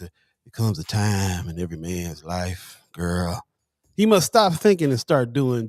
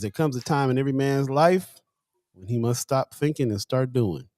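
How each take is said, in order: First: It is said in a put-on nineties R&B voice. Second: It is said in his normal speaking voice.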